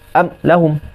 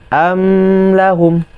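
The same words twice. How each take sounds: First: The m sound is cut off abruptly. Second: The m sound flows on and is prolonged. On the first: "kalau dia syiddah amlahum" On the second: "Kalau dia rakhawah amlahum"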